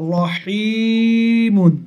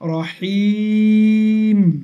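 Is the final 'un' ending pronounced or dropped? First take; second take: pronounced; dropped. First: The word ends with a full 'mun' sound. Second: The word ends on a plain 'm' sound. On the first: "মিম দো পেশ মুন" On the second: "মুন না পড়ে কি বলবো আমরা এখানে?"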